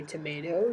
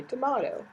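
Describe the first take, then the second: First: "tomato" with a long AY in the middle; "tomato" rhyming with potato; American pronunciation. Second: "tomato" with a broad AH in the middle; British-style pronunciation. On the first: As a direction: say "tomato" as tuh-MAY-toh. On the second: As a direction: say "tomato" as tuh-MAH-toh. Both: Shown as a demonstration. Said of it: "how you pronounce something".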